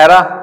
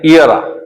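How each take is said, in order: First: The first vowel sounds like 'eh'. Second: The first vowel sounds like 'ee'. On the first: The speaker calls it wrong. "आप इसको पढ़ते हैं एरा, एरा नहीं" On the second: The speaker calls it right. "इस ई को हम ई पढ़ेंगे"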